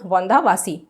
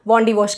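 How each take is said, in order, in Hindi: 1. इस नाम को Vandavasi कहा जाता है। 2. इस नाम को Wandiwash कहा जाता है। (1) "तमिलनाडु के लोग हैं वो क्या बोलते थे उसको, वांदावासी" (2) "वो उसको वांडीवॉश कह के प्रोनाउंस करते थे"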